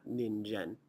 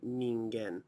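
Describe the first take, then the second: First: The middle consonant is a j sound. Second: The middle consonant is a hard g sound. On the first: The speaker calls it wrong. "not Ninjen" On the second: The speaker calls it right. "It is actually Ningen"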